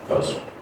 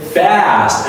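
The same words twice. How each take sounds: First: The word is said short and clipped. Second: The word is stretched out and drawn long. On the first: The speaker calls it wrong. "You don't say fast" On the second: The speaker calls it right. "So you stretch it"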